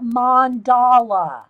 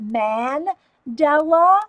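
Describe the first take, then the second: First: Mandala said mon-DAH-lah, open ah sounds; mandala with broad a. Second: Mandela said man-DEL-ah, flat a in the first syllable; Mandela with a short a. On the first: Asking viewers which way, says mandala with broad vowels. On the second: Asking viewers which way, says Mandela with a short a. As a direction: try Mandela with an e sound in the middle. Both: Shown as a demonstration. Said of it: "how did y'all say it".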